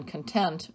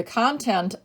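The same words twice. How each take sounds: First: Kun-TENT, second syllable stressed. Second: CON-tent, first syllable stressed. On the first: Teacher explaining being satisfied, content as kun-TENT. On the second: Teacher explaining the thing inside, content as CON-tent. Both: Shown as a demonstration. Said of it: "also pronounced content".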